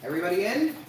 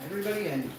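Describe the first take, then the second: First: Raised, loud call rising on "in"; high question, climbing to the end on "in". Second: High start on "everybody", falling to "in"; raised voice with a falling close on "in"; falling statement. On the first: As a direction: ask it with "in" swooping up. Asking, then confirming with dogs. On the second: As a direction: state it, letting "in" drop. Repeats it as a statement. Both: Real, not acted.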